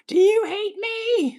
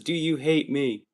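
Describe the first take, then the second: First: It is screamed loudly. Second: It is said in a calm, normal voice.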